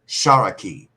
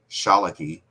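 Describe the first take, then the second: First: The middle consonant is an R sound. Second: The middle consonant is an L sound. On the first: This is the pronunciation of the lower towns. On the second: This is the pronunciation outside the lower towns.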